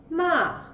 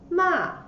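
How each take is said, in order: Both takes have the same delivery.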